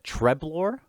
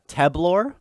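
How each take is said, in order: First: The name begins with a Tre sound. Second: The name begins with a plain Te sound.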